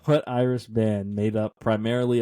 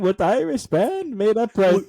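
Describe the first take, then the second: First: It is said in the speaker's normal accent. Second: It is said in a put-on Irish accent.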